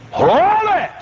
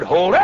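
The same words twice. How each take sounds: First: High-pitched stretched shout; hollered halt. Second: Short command with rising end; firm halt. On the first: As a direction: holler it high to freeze him. Second, hollered command. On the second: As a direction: stop him with a brief order. First command to the plate carrier. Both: Retold or imitated.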